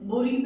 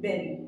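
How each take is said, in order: First: The first vowel sounds like 'oo'. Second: The first vowel sounds like 'e' in 'bed'. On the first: The speaker calls it wrong. "बुरी भी बोल देते हैं" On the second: The speaker calls it right. "Exact इसकी pronunciation क्या होती है? It's बेरी"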